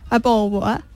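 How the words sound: It is said in a British accent.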